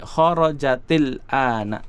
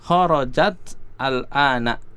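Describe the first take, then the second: First: The words are joined by an added i vowel. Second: The two words are read apart, without linking. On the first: "kalau mau dibaca ya bersambung, maka sukun yang pertama dikasrohkan" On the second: "tadi dibaca terpisah ya"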